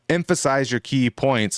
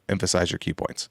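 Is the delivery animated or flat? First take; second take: animated; flat. First: It is said with lively, varied emphasis. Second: It is said in a flat, even tone. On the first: The speaker calls it right. "when I just said that" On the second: The speaker calls it wrong. "as opposed to"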